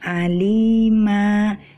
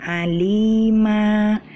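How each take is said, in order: Both takes have the same delivery.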